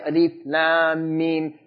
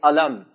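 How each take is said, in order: First: Each letter is named separately, one by one. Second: The letters are run together as one word. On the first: The speaker calls it right. "You say alif lam mim. You cut them as you read them" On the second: The speaker calls it wrong. "you don't say alam"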